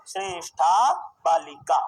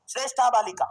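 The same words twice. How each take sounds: First: Shreshtha Balika drawn out slowly, word by word, lower; slow dictation. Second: Said in the usual way. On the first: Shown as a demonstration. Teacher dictating the answer to the class, slow dictation. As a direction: stretch out the long vowels of Shreshtha Balika.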